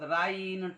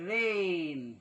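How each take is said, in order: First: The vowel sounds like 'eye'. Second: The vowel sounds like 'ay'. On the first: The speaker calls it wrong. "ते असे वाचू शकतात राईन" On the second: The speaker calls it right. "रेन रेन right"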